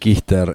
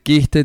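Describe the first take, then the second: First: The word ends with an added r sound. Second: The word ends in a plain e vowel. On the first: The speaker calls it wrong. "te dicen quister" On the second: The speaker calls it right. "En vez de decir quiste"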